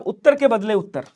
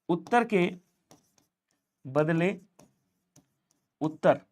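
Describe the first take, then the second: First: Said in the usual way. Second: Slow word by word. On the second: Shown as a demonstration.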